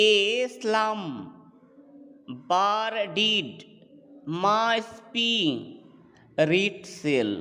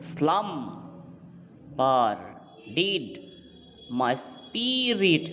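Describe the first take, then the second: First: Slow, measured "এ স্লাম, বার ডিড, মা স্পি, রিট সেল", paired syllables; syllables grouped in feet. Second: "স্লাম, বার, ডিড", each set apart, then slow "মাই স্পিরিট"; showing the accent. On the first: Teacher counting four feet, "এ স্লাম, বার ডিড, মা স্পি, রিট সেল" in slow separated pairs. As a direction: scan it foot by foot, pausing after "এ স্লাম", "বার ডিড", "মা স্পি". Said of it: "চারটে করে foot পাচ্ছি".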